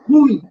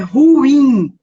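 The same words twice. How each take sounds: First: The stress falls on the first syllable. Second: The stress falls on the last syllable. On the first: The speaker calls it wrong. "não é ruim" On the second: The speaker calls it right. "A pronúncia correta é ruim. A sílaba forte é a última"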